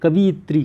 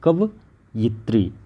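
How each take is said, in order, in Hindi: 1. दूसरा अक्षर 'vi' है, फिर 'ya'। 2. दूसरा अक्षर 'va' है, फिर 'yi'। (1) "बहुत सारे लोग गलतियां करते हैं, ये गलत है" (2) "कवयित्री होता है, व में ई की मात्रा नहीं लगती"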